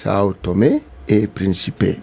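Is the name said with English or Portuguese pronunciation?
Portuguese. The name is said with Portuguese pronunciation. "the pronunciation, since it is Portuguese, is"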